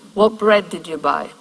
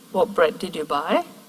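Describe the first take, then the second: First: The voice falls at the end. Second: The voice rises at the end.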